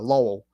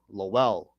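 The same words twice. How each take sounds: First: It is said the way locals say it. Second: It is said the way it is spelled. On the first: The speaker is from the area. The speaker calls it right. "pronounced as uh Lowell" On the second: The speaker is not from the area. The speaker calls it wrong. "people see see Lowell, they would call it Lowell"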